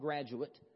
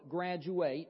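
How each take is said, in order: First: The word is pronounced as the noun. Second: The word is pronounced as the verb. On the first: It names a person who has completed a stage. "not graduate" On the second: It names the act of completing a stage. "I'm thinking of the verb graduate"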